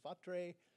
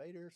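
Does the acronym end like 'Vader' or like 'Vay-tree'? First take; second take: Vay-tree; Vader. First: The acronym is said like 'Vay-tree'. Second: The acronym is said like 'Vader'. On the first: "some people call it a Vatre" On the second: "Some people call that a Vader"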